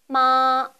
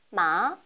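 First: The pitch stays high and level throughout. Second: The pitch rises from middle to high. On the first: "처음부터 끝까지 높은 음을 유지합니다" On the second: "중간음에서 가장 높은 음까지 단번에 올리시면 됩니다"

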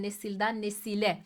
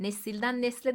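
First: The second word keeps its narrow vowel. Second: The second word drops its narrow vowel. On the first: The speaker calls it right. "İkilemelerde ünlü düşmesi yaşanmaz" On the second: The speaker calls it wrong. "nesilden nesle değil de"

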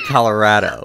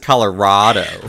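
First: The 'ra' sounds like the word 'rad'. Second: The 'ra' does not sound like 'rad'. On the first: The speaker pronounces it this way. "I say Colorado. ... Rado. Like rad" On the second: Another person pronounces it this way. "She says Colorado"

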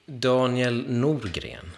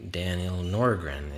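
First: The name is said with a Swedish pronunciation. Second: The name is said with an American pronunciation.

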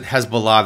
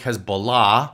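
First: It is said the common American English way. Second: It is said in a more original, non-American way. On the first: "That's how it's pronounced, right or wrongly, in the United States today" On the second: "It's more like Hezbollah"

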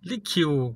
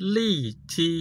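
First: The name is said as 'Likiu'. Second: The name is said as 'Lichi'. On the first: The speaker calls it wrong. "บางคนก็บอกว่าลิคิว" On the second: The speaker calls it right. "จริงๆแล้วมันอ่านว่าลี่ชี"

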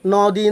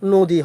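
First: The first vowel is an open 'aw' sound. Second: The first vowel is a closed 'oh' sound. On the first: The speaker calls it wrong. "ন দি না হয়ে" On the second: The speaker calls it right. "নদী হবে"

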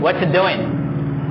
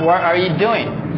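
First: The word 'are' is dropped entirely. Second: The word 'are' is clearly pronounced. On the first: The speaker calls it right. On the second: The speaker calls it wrong. "It's not"

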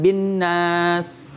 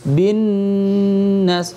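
First: The nasal sound is held only briefly. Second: The nasal sound is held for two beats. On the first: The speaker calls it wrong. "Jangan bin nas. ... dengungnya kurang" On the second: The speaker calls it right. "Harus bin nas"

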